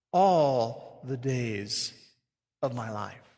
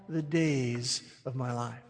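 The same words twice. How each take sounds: First: "All" drawn out slow and leaned on; stress on ALL. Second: Said in the usual way. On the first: Shown as a demonstration. Pastor pointing the flock to "All" with slow stress. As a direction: dwell on "All the days". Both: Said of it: "You notice what he says there".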